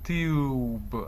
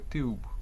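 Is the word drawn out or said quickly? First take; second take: drawn out; quick. First: The word is stretched out slowly. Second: The word is said quickly and compactly. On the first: The speaker calls it wrong. "не розтягати його так, щоб це було «тюб»" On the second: The speaker calls it right. "просто хутко вимовляти всі три звуки"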